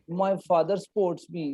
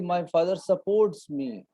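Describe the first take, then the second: First: The first vowel of 'supports' is dropped. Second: The first vowel of 'supports' is clearly kept. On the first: The speaker calls it wrong. "sometimes Punjabis like me speak" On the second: The speaker calls it right. "I was trying to say"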